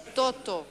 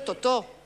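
First: The stress is on the first syllable. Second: The stress is on the last syllable. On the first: "tú has dicho Totó" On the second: "con acento en la última O, como hacemos los franceses"

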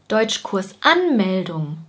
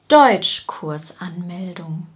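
First: The main stress falls later, not on the first syllable. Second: The main stress is on the first syllable. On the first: The speaker calls it wrong. "wir sagen zum Beispiel nicht" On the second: The speaker calls it right. "Wir sagen"

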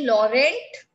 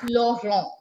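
First: It is pronounced with an English pronunciation. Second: It is pronounced with a French pronunciation. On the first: "Like in English, we say Laurent" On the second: "In French, it is Laurent"

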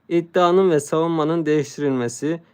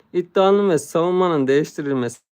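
The two takes are said the same way.

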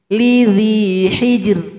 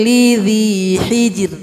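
The two takes are said the same way.

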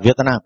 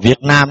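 First: The t sound at the end of Việt is lightly audible. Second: The t sound at the end of Việt is dropped. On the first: The speaker calls it right. "nó đọc là Việt Nam, là có chữ T trong đó" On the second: The speaker calls it wrong. "nó không có đọc là Việt Nam"

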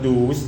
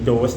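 First: It is said with an oo vowel, doos. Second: It is said with an oh vowel, dose. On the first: The speaker calls it wrong. "หรือไม่อ่านว่าดูส" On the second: The speaker calls it right. "อันนี้เป็นโดส"

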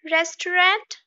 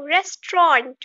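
First: The word has three full syllables. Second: The word has two syllables. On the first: The speaker calls it wrong. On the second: The speaker calls it right.

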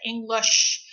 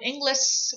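First: The final 'sh' sound is clear and full. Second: The final 'sh' sound is weak or missing. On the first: The speaker calls it right. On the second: The speaker calls it wrong. "kita sering ngomong"

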